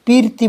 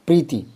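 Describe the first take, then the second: First: पीरती as pīr-tī, vowel before the र; higher-pitched mock error on पीरती; common mispronunciation. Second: प्रीति with प and र joined, long ī after र; correct pronunciation. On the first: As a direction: split पीरती wrongly after the र. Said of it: "पीरती बोलते हो क्या?". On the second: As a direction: run प straight into री in प्रीति. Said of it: "ये प्रीति है". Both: Shown as a demonstration.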